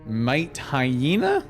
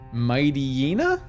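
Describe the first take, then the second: First: It is said as 'might' plus 'hyena'. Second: It is said as 'mighty' plus 'yenna'. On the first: "Kinda kinda might be the correct way" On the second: "I've always pronounced it Mighty Yenna, like mighty"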